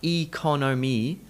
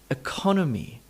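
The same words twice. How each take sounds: First: The unstressed vowels are said full and clear. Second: The unstressed vowels are reduced to a weak uh. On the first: The speaker calls it wrong. "Not economy" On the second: The speaker calls it right. "It's only possible to stress the syllable by reducing down those other vowel sounds"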